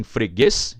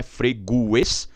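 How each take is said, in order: First: Freguês said slowly with stress on the final -guês; correct freguês. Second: Freguês said with stress moved, like fre-GUES split; wrong stress. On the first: Teacher showing students the right way to say freguês. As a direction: say freguês the right way, slow and clear. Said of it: "e sim freguês". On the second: Teacher showing the wrong way to say freguês. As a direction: mispronounce freguês as a wrong example. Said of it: "Não é freguês". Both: Shown as a demonstration.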